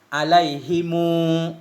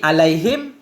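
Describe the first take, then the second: First: The h takes an i; m takes a long u. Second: The h takes an i vowel; final m is bare. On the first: "dengan waw sesudah dhammah isbah" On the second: "Mengkasrahkan ha alaihi ... bersama sukun mim"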